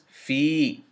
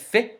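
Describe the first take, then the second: First: The vowel is held long. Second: The vowel is cut short and quick.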